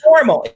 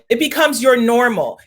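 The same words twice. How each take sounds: First: "your" said louder and punched before "normal"; stress on your. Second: Said in the usual way. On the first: Shown as a demonstration. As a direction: lean hard on "your".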